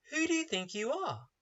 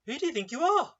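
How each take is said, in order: First: Raised, pointed rhetorical question; questioning retort. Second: Higher, rising challenge to the listener; raised rhetorical challenge. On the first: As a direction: push the question at the listener. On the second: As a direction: throw the question back up. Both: Shown as a demonstration. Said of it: "That is the rhetorical question".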